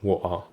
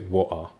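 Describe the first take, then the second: First: The middle consonant is a glottal stop. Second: The same.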